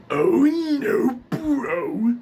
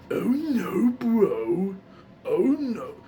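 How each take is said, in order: First: Loud, high gravelly cry; Muscle Man. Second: Early, rougher attempt at the gravelly character; higher voice, a less forceful practice take; Muscle Man. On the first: Showing viewers his learned line, gravelly Muscle Man voice. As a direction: force it out in a gravelly cartoon voice. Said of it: "when I learned Muscle Man". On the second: Recalling first attempts for viewers, beginner's Muscle Man voice. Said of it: "when I first was learning him". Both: Shown as a demonstration.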